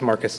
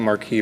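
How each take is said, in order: First: The name is said like Marcus. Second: The name is said like Marquis. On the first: The speaker calls it right. "but if it's Marcus" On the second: The speaker calls it wrong. "I was pronouncing it Marquis"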